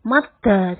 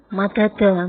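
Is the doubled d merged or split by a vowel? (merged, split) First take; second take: merged; split. First: The two d sounds are merged into one doubled d. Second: The d sounds are split by a vowel between them. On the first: The speaker calls it right. "yang betul madda" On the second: The speaker calls it wrong. "jangan madada"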